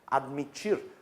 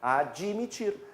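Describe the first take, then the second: First: The d is said bare, with no vowel after. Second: An extra i sound follows the d. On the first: This is how the grammar expects it. "nós não pronunciamos admitir, admitir, com essa mudez toda" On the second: This is how people say it in everyday speech. "Na linguagem coloquial a gente fala desse jeito"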